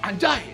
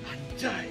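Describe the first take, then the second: First: It sounds angry. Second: It sounds hurt and upset over a loss.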